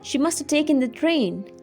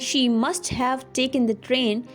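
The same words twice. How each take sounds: First: The word 'have' is reduced to a weak 'a'. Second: The word 'have' is pronounced in full. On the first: "you can say" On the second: "instead of saying"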